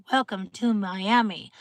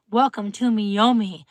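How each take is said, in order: First: Said in the usual way. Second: Punning "Miyomi" sung out like the city name; wine-name pun. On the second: Shown as a demonstration. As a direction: Welcome to Miyomi with Miyomi said mee-OH-mee in place of Miami. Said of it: "Miyomi is really good".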